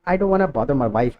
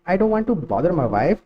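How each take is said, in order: First: 'Want to' is shortened to 'wanna'. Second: 'Want to' is said as two full words.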